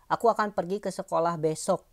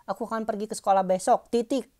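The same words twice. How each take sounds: First: Said in the usual way. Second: Higher-pitched demo of "Aku akan pergi ke sekolah besok, titik"; spoken-out example sentence. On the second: Shown as a demonstration. Teacher shows class how the quoted line is spoken, raised demo voice. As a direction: say the example up high, voicing "titik" as a word. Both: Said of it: "Kalau pas ngomongnya gitu".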